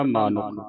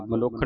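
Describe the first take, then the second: First: ਮਾਨੁਖ with long "maa"; long first vowel. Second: ਮਨੁੱਖ as "manukkh", short first vowel; wrong short vowel. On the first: Teacher correcting to the learned form, ਮਾਨੁਖ with long "maa". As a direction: lengthen the first syllable of ਮਾਨੁਖ. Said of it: "ਮਨੁੱਖ ਨਹੀਂ ਪੜਨਾ". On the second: Teacher recalling the misreading, ਮਨੁੱਖ with short "ma". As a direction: say ਮਨੁੱਖ without the long aa. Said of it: "ਨਹੀਂ ਪੜਨਾ". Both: Shown as a demonstration.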